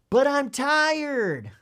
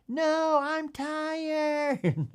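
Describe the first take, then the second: First: Put-on loud, high, drawn-out child's protest; louder whining child. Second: High, long-drawn mock wail; hammed-up little kid wailing in protest; wailing child. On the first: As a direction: act a kid protesting louder, stretching each word. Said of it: "the child, l-, louder". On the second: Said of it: "now the kid's wailing".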